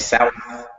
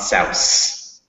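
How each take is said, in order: First: The word ends with a th sound. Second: The word ends with an s sound. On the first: The speaker calls it right. "Make sure it's a T H" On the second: The speaker calls it wrong. "not an S"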